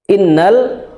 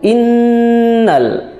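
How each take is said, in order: First: The nasal n is cut short and rushed. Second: The nasal n is held long before continuing. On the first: The speaker calls it wrong. "Bukan innal" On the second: The speaker calls it right. "tapi innal"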